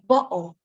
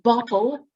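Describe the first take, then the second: First: The T sound is replaced by a glottal stop. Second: The T sound is fully pronounced. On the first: "whenever you don't articulate fully the T sound" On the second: "Instead of saying bottle"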